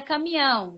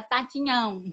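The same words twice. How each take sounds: First: Said in the usual way. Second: Caminhão said as "tatinhão", T for the K; swapped child's sounds. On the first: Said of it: "tipo assim, era caminhão". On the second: Retold or imitated. Therapist quotes a young patient's speech error, "tatinhão" with swapped sounds. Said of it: "ela pronuncia tudo, ela pronuncia trocado".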